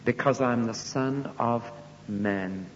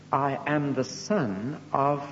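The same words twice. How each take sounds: First: Slow, completes the phrase and lands on Man; completed with Man. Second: Slow, stops short on of, leaving the last word hanging; hanging pause after of. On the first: Preacher gives Jesus's actual words slowly. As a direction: finish the phrase and settle on Man. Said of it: "He didn't say that. He said". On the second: Preacher leaves the sentence unfinished for the crowd. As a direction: break off after of so listeners fill in the word. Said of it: "what would you expect to be said there". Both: Shown as a demonstration.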